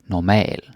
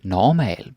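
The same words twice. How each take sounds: First: The stress falls where Danish puts it. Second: The stress falls where English puts it. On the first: The speaker calls it right. "but normal. The stress is here" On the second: The speaker calls it wrong. "Don't say normal"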